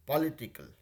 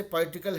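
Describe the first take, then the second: First: political said slowly, each syllable given its time; unhurried careful political for the class; slow, deliberate political. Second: Said in the usual way. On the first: Shown as a demonstration. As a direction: take your time over political, syllable by syllable. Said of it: "थोड़ा सा ठहराव के साथ political". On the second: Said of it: "इसको थोड़ा सा ठहराव के साथ".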